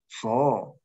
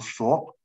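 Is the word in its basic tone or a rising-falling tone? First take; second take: rise-fall; basic. First: The word is said with a rising-falling tone. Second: The word is said in its basic citation tone. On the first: The word ends the sentence. "在句尾呢，它会变成…升降调，读第五调" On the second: The word stands alone. "本来你单独读这个字呢，它是读索"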